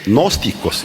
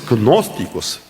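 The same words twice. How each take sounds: First: The word begins without any G sound. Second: The word begins with an audible G sound.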